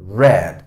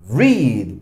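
First: The vowel is short, rhyming with 'red'. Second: The vowel is long, rhyming with 'reed'. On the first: It is the past form of the verb. "en su forma pasada y pasada participia se pronuncia como el color rojo" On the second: It is the base form of the verb. "En su forma infinitiva se pronuncia read, read, pero es un sonido largo"

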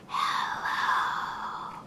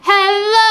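First: It is said very quietly. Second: It is said very loudly.

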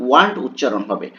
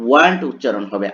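No difference in how they are said.

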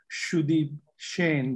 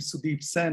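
First: The surname starts with an sh sound. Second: The surname starts with a plain s sound. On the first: "is really Sudeep Shane" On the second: "as you read it"

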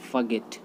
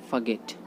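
The two takes are said the same way.

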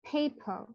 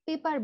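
First: The first P has a puff of air. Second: The first P has no puff of air. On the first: The speaker calls it right. "যদি আপনি exact ওয়েটা pronounce করতে চান, this should be পেপার" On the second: The speaker calls it wrong. "এটা কিন্তু আমরা পেপার বলে থাকি"

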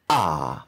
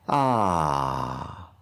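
First: The vowel starts with a hard glottal catch. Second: The vowel starts softly and smoothly. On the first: The speaker calls it wrong. "instead of attacking it" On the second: The speaker calls it right. "easing cleanly onto the sound"

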